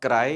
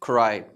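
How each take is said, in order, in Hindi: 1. पहली k ध्वनि में हवा का झोंका नहीं है। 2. पहली k ध्वनि में हवा का झोंका है। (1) "नॉट क्राई" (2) "ये जो सी है इट्स गोइंग टू बी खा"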